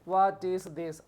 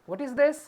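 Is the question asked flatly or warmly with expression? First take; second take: flatly; warmly. First: The question is asked flatly, without expression. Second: The question is asked warmly, with lively expression. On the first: The speaker calls it wrong. "ऐसा पूछते हैं नहीं ना" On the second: The speaker calls it right. "प्यार से बोलते हैं, ऐसे एक्सप्रेशन लाइए"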